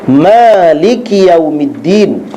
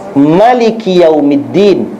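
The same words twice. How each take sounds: First: The vowel after the m is long. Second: The vowel after the m is short. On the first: The one who owns the day of judgment. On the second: The king of the day of judgment.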